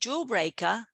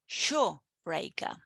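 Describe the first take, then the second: First: The word begins with a 'j' sound. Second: The word begins with a 'sh' sound. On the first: The speaker calls it right. "instead of saying jawbreaker" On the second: The speaker calls it wrong. "they would say shawbreaker"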